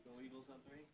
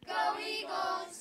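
First: Said in the usual way. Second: High, loud, drawn-out cheer; cheer shout. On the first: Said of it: "One, two, three". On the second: Real, not acted. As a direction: yell the school cheer together.

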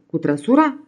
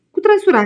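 First: Rising, disbelieving "Cu trăsura?"; stunned question. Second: Much higher and louder, "trăsura" falling firmly; emphatic insistence. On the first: Innkeeper can't believe he'll drive up the dunes, incredulous. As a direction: let the disbelief lift the end. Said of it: "se uită la el uluit". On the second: Emanuel answering the doubting innkeeper, loud and sure. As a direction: shoot back with stubborn certainty. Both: Acted.

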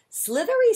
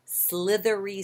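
First: Much higher, louder squeaky voice; a sudden high-pitched squeal; high squeak. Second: Said in the usual way. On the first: Shown as a demonstration. Second take, much higher. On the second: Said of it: "really big tongue twister".

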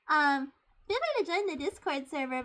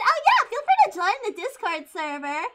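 First: Said in the usual way. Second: Higher, excited shout; loud and hyper. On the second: Real, not acted. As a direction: blurt the invitation at full hyper volume. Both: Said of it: "I get very loud when I'm hyper".

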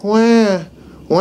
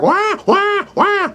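First: A mild, even wah without panic; calm mock cry. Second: Far higher, panicked wailing wahs; frantic mock cry. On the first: Instructor shows how a prey animal does NOT sound. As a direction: cry it but without any fear. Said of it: "isn't gonna be like". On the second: Instructor shows a prey animal being eaten, frantic wailing. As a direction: freak out, wail in terror. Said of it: "It's gonna freak out". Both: Shown as a demonstration.

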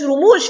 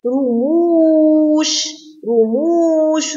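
First: Said in the usual way. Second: رموش with a long, held oo; long waw. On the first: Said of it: "فيها مد واو". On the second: Shown as a demonstration. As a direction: stretch the second vowel of رموش very slowly. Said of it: "رموش فيها مد واو".

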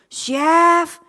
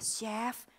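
First: Loud, long call of the name; shout. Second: Soft call to the chef; quiet call. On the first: Hostess finally shouts for the chef, loud. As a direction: shout it across the kitchen. Chef langsung lihat ke saya. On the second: Hostess timidly calls the chef in the kitchen, soft. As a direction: call softly, unsure. Nggak denger-denger. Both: Retold or imitated.

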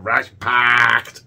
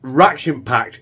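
First: "ration-packed" drawn out slowly in a mock Scottish accent; slow hammy Scottish "ration-packed". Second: Said in the usual way. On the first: Shown as a demonstration. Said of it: "trying to do ration-packed in a Scottish accent". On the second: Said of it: "in a Scottish accent".

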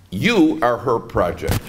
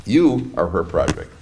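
First: Slow, with "You" stressed and rising at the end. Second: Slow, lower, "You" stressed with a falling finish; falling emphasis. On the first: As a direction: lean on "You", drawn out and rising. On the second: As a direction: press "You" down, firm and final. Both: Shown as a demonstration.

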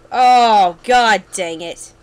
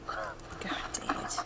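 First: Loud exasperated curse, drawn out at the end; frustrated outburst. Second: Slow, frustrated whisper; whispered curse. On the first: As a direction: groan it out loudly in frustration. Setback in the game. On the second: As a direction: curse slowly under your breath. Repeats curse under breath. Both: Real, not acted.

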